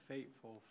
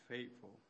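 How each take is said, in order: The two takes are said the same way.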